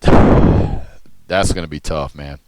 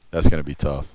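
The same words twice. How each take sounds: First: Slow, sighing and louder; weary sigh. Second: Said in the usual way. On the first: Real, not acted. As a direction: drag it out with a tired sigh. Weary repeat of a verdict.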